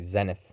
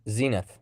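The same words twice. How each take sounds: First: It is said with a British pronunciation. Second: It is said with a non-British pronunciation.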